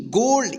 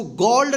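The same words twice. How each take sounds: First: "गोल्ड" with a long pure o, as in go; correct long o. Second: "गोल्ड" with an open aw vowel, like gawld; wrong open vowel. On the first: Teacher reading the spelled word for learners, "गोल्ड" with long o. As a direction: say "गोल्ड" rhyming with old. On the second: Teacher warning learners off a misreading, "गोल्ड" with open aw. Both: Shown as a demonstration. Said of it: "इसको गोल्ड नहीं पढ़ेंगे".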